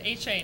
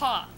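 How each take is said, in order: First: The name is spelled out as two letters. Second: The name is said as one syllable word. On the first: The speaker calls it wrong. "most people pronounce it H A" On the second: The speaker calls it right. "No, that's um, it's Ha"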